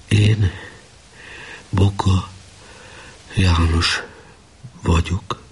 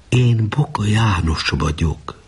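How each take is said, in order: First: Word by word with long empty pauses; tired, uncomprehending repetition. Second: Slow, connected statement of who he is; choked voice. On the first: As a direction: echo it blankly, one isolated word at a time. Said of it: "Fáradt hangon, értelmetlenül mondta utána". (fáradtan, értelmetlenül, szavanként elismételve) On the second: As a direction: say it slowly and earnestly, higher at the start. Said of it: "szólt folytott hangon a tábornok". (lassan, fojtott hangon) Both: A narrator's reading.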